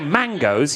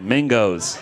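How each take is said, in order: First: The first syllable sounds like 'man'. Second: The first syllable sounds like 'min'. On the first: "You didn't say mangoes" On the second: "the way your accent works, you pronounced it mingos"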